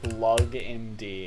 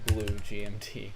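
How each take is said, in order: First: The first part is one syllable, blug. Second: The first part is two syllables, blue gee. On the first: It is read straight from left to right. The speaker calls it wrong. "it kind of looks like Blug M D" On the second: It is the intended reading of the name. The speaker calls it right. "and not Blue G M T"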